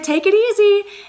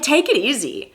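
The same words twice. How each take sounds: First: It sounds relaxed and friendly. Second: It sounds upset and disapproving. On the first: Take care. "that's like take care" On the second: Back off. "it can sound like you're really upset and you're disapproving"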